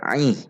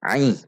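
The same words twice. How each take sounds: First: The vowel starts with a sound from mid-throat. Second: The same.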